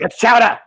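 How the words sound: It imitates Mayor Quimby's voice.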